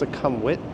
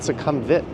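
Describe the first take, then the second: First: The last syllable is said with a w sound. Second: The last syllable is said without a w sound. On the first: This is the closer local pronunciation. The speaker calls it right. "It's Succumbwit" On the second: This is how most visitors say it. The speaker calls it wrong. "like every YouTuber says"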